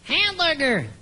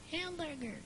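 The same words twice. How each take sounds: First: Said in the usual way. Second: Faint distant repeat, much softer; canyon echo. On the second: Shown as a demonstration. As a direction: echo it back from far away. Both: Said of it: "my impersonation of an echo".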